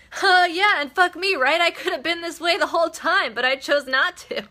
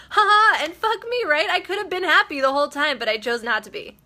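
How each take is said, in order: First: High, loud, gleefully exclaiming; gleeful retold quote. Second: High and loud, laughing through the words; laughing retold quote. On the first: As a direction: burst out like you've only just realized it. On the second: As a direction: laugh it out, amazed at yourself. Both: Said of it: "And she was like".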